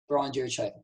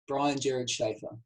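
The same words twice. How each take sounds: First: The name is said quickly and plainly. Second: The name is said slowly on an exhale.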